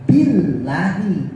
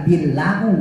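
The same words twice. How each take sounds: First: Slow "billahi" ending in i. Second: "billahu" with final u, the wrong form. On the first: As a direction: draw out "billahi" with final i. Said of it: "bukan lagi Allahu, tapi". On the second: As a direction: say "billahu" as the mistake. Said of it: "bukan billahu". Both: Shown as a demonstration.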